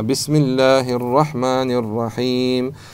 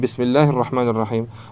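First: The long vowels are drawn out. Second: The long vowels are kept short. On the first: The speaker calls it right. "растягивал ... а бисмиллахи рахмани рахим" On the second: The speaker calls it wrong. "не бисмиллахи рахмани рахим"

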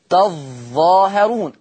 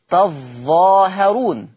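The two takes are said the same way.

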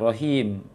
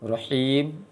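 First: The h is soft and breathy from low throat. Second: The h is tight and harsh from mid-throat. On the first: The speaker calls it wrong. "Kalau rahim berarti ha besar di tenggorokan bawah tadi" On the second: The speaker calls it right. "ha di tengah tenggorokan"

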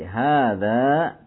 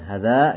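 First: The first vowel is long. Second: The first vowel is short. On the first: The speaker calls it right. "tapi hadza tajirun gitu" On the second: The speaker calls it wrong. "itu haknya kurang panjang sedikit, bukan hadza gitu ya"

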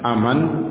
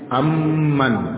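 First: The m sound is short and single. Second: The m sound is held long and doubled. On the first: The speaker calls it wrong. "bukan aman" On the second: The speaker calls it right. "tapi amman. Ada mimnya tasdid"

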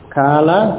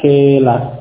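First: The vowel is an open 'a' sound. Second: The vowel is fronted toward an 'e' sound.

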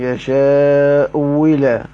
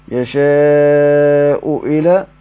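First: The hamza is replaced by a clear w sound. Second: The hamza is pronounced fully as a glottal stop. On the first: "والواو المحضة على مذهب بعضهم" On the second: "تحقيق على مذهب الجمهور"

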